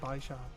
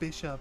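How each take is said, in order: First: It does not sound like the chess word. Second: It sounds like the chess piece bishop. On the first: The speaker calls it wrong. "rather than Bishop" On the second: The speaker calls it right. "it should be Bishop"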